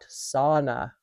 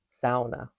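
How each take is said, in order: First: The first syllable lacks an 'ow' vowel sound. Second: The first syllable has an 'ow' vowel sound. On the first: The speaker calls it wrong. "not sauna" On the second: The speaker calls it right. "S A U. That's just how we sound it out"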